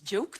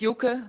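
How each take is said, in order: First: It sounds like the English word 'joke'. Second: It is said the Dutch way, not like 'joke'. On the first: The speaker calls it wrong. "Most time it's joke, they say" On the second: The speaker calls it right. "you said correct"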